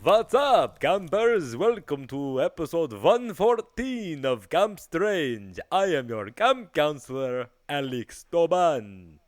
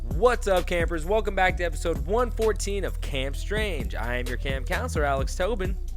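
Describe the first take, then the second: First: It is said in a spooky Dracula voice. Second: It is said in his normal voice.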